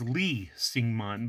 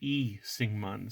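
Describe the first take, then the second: First: The name begins with an L sound. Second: The name begins directly with a vowel.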